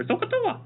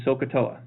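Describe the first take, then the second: First: Squeaky very high mock voice; silly high voice. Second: Said in the usual way. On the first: Shown as a demonstration. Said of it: "say it with an accent like". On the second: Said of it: "So the saying a lot of times is".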